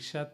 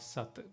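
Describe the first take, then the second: First: The word begins with an sh sound. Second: The word begins with an s sound. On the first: "Sha and Sa again can be interchanged" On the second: "Sha and Sa again can be interchanged"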